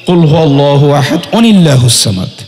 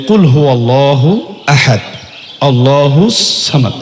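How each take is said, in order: First: 'Ahad' runs straight into the next word. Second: There is a stop after 'ahad'. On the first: "আর যদি একত্রিত বলেন" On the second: "যদি আপনি থামেন তাহলে"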